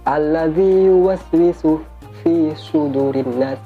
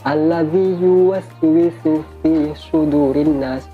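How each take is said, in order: No difference in how they are said.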